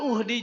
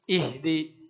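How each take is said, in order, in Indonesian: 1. Kata ini dimulai dengan vokal u. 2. Kata ini dimulai dengan vokal i. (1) "bukan uhdi juga" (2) "tapi ihdi"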